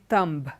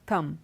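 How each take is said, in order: First: A B sound is pronounced after the M. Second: No B sound is pronounced after the M. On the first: The speaker calls it wrong. "we don't say thumb" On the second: The speaker calls it right. "the B is silent"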